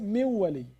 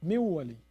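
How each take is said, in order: First: The n is skipped and merges into the w. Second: The same.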